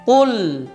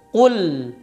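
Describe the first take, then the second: First: The final l is held only slightly and lightly. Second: The final l is held only slightly and lightly.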